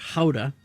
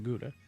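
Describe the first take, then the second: First: Gouda is said the original, non-American way. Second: Gouda is said the American way.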